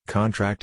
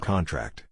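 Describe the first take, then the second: First: CON-tract, stressed on the first syllable. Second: Con-TRACT, stressed on the last syllable. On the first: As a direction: hit CON in "contract", as the noun. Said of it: "Stress on the first syllable is a noun". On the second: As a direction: hit TRACT in "contract", as the verb. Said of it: "Stress on the last syllable is a verb". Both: Shown as a demonstration.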